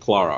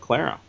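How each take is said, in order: First: The name is said with a British pronunciation. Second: The name is said with an American pronunciation. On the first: The speaker calls it right. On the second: The speaker calls it wrong.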